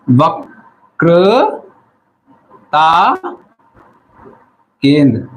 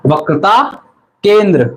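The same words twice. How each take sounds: First: वक्रता drawn out syllable by syllable, then केंद्र. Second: Said in the usual way. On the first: Shown as a demonstration. Teacher dictating the term to note-taking students, very slowly, syllable by syllable. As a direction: stretch each syllable of वक्रता, pausing before केंद्र.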